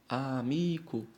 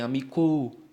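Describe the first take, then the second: First: The stress is on the second-to-last syllable. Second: The stress is not on the second-to-last syllable. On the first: The speaker calls it right. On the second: The speaker calls it wrong.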